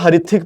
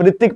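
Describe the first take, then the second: First: The name begins with an audible H sound. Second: The name begins with an R sound, no H. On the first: The name is read as it is spelled. "मैं तो इसको हरिथिक पढ़ूंगा" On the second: The owner of the name chose this reading. "एच silent है"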